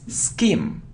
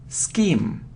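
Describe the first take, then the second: No difference in how they are said.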